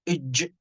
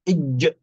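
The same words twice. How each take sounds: First: The j sound has air spreading out, like sh. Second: The j sound is crisp, without spreading air. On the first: The speaker calls it wrong. "لا نقول إج إج كأن تفشي يخرج مع حرف الجيم" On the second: The speaker calls it right. "لابد أن نعطش حرف الجيم"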